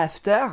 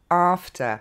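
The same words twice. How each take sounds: First: After said the French way, flat and even, ending in a French r; French-accented after. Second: After with an open first vowel and a stress on the first syllable; English after. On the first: Teacher showing the common mistake, French-accented. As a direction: say after like a francophone beginner would. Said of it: "on dit pas after". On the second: Teacher modelling the correct English version, clear demo. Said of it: "mais on dit after". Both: Shown as a demonstration.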